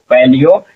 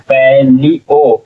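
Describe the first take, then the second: First: Said in the usual way. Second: palaeo slowly, as pai, lee, o; syllable by syllable. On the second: Shown as a demonstration. Teacher builds the word for learners, palaeo syllable by syllable. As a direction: break palaeo into three drawn-out syllables. Teacher sounds out, then blends.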